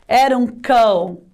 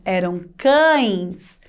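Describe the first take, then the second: First: Said in the usual way. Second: "cães" slowly, with a long nasal ãe plus s; plural ending. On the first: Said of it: "Mais de um". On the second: Shown as a demonstration. Teacher correcting singular to plural, drawn-out nasal "cães". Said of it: "No plural".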